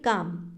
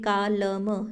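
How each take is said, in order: First: The word is said without any L sound. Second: The word is said with an L sound. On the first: The speaker calls it right. "हम सीधा कैसे बोलते हैं, काम" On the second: The speaker calls it wrong. "कालम हम ऐसे नहीं बोलते ना"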